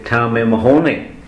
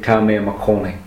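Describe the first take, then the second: First: The last word starts with an h sound. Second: The last word starts with a k sound. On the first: The speaker calls it right. "we don't pronounce the C this time, we pronounce the hitch" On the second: The speaker calls it wrong. "it's wrong to say"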